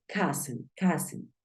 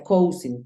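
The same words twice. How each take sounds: First: "cousin" said KAH-sen, short open first vowel; teacher's clear KAH-sen for "cousin"; correct cousin pronunciation. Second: "cousin" read as spelled, KOH-sin; spelling pronunciation of "cousin", KOW-sin; mispronounced cousin. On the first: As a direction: model "cousin" as KAH-sen, not KOH-sin. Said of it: "Se pronuncia cousin". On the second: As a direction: say "cousin" with a long OH and an S. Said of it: "hay gente que piensa que se pronuncia". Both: Shown as a demonstration.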